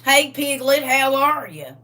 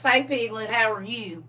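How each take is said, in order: First: Loud, higher country Southern greeting; brother's Southern accent. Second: Lightly imitated Southern greeting; brother's Southern accent. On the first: Retold or imitated. Brother greeting sibling by nickname, hammed-up Southern accent. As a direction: imitate a Southern brother hollering hello. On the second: Sister quoting brother's greeting, light Southern accent. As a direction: toss off a milder country Southern hello. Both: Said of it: "my brother sounds like that".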